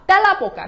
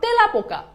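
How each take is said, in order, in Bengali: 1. প্রথম স্বরধ্বনিটি একটি খোলা 'ae' ধ্বনি। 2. প্রথম স্বরধ্বনিটি একটি বন্ধ 'e' ধ্বনি। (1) "তেলা পোকা নট" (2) "নট তেলা পোকা"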